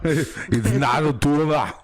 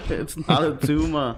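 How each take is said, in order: First: Slow, higher, exaggerated quote; hammed-up catchphrase impression. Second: Lightly put-on quote voice; movie catchphrase impression. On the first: Host topping co-host's film quote, exaggerated impression. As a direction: stretch the line out in a big mock voice. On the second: Co-host answering with film quote, light impression. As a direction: give the famous line a playful twist.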